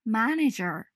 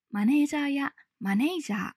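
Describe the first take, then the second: First: マネージャー as English "manager", stress on the first syllable; マネージャー said MA-nager the English way; English pronunciation. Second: マネージャー with flat Japanese katakana sounds; マネージャー said as Japanese syllables; katakana pronunciation. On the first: Teacher models correct manager. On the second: Teacher shows the wrong katakana way. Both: Shown as a demonstration. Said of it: "ではなく".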